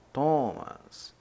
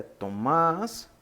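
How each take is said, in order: First: "Thomas" stressed on the first syllable; others' pronunciation. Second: "Tomás" stressed on the last syllable; correct pronunciation. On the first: Teacher showing how some say Thomas, first-syllable stress. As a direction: say "Thomas" as TÓ-mas. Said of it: "Alguns falam". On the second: Teacher correcting Thomas to Tomás, final-syllable stress. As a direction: say "Tomás" as to-MÁS. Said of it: "mas o correto é". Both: Shown as a demonstration.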